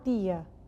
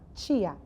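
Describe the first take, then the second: First: It is said in a Paraíba accent. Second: It is said in a central Ceará accent. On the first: "O sotaque da Paraíba" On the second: "sertão central, de onde eu me criei, Fortaleza"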